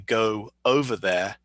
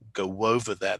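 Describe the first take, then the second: First: The words are said separately without a linking sound. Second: A W sound links 'go' smoothly into 'over'. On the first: The speaker calls it wrong. "we don't say" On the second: The speaker calls it right. "There's a W sound that gets inserted"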